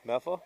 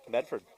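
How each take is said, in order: First: The R sound is dropped, Boston style. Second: The R sound is pronounced clearly. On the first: "That's better" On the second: "did you pronounce the R?"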